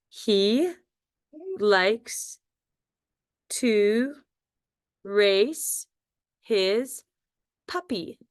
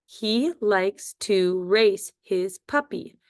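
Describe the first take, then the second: First: Each word said apart, slowly, for spelling; word by word dictation. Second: Slow, even read of the whole sentence; slow dictation. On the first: Teacher dictating to young spellers, word by word. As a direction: dictate it one word at a time. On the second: Teacher reading the sentence slowly to pupils. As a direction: read it slowly for the class to write. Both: Shown as a demonstration. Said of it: "Our first sentence is".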